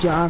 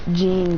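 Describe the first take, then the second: First: The name is said like John. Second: The name is said like Gene. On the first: This is how others say the name. The speaker calls it wrong. "They just pronounce it John for some reason" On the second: This is the correct way to say the name. The speaker calls it right. "It's Gene though"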